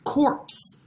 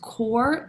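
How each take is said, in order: First: The P and final S are pronounced. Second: The P and final S are silent. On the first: The speaker calls it wrong. "you think it's a P, so you think it's corpse" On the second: The speaker calls it right. "It is corps. This is a French word"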